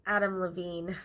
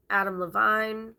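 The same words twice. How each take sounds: First: Levine said luh-VEEN, rhyming with "seen"; corrected surname. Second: Levine said luh-VINE, rhyming with "wine"; mispronounced surname. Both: Real, not acted. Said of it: "I'm sorry".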